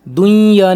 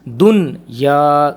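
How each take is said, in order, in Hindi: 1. n अगले y में घुल जाता है। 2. y से पहले n स्पष्ट बोला जाता है। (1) "दुनिया नहीं पढ़ेंगे इसको" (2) "नून को वाजे करेंगे"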